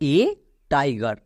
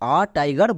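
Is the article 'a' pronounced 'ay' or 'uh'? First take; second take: ay; uh. First: The article sounds like 'ay'. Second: The article sounds like 'uh'. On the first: The speaker calls it right. "এর জন্য উচ্চারণ করব এ tiger" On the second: The speaker calls it wrong. "একে আমরা ভুল করেও আ tiger বলবো না"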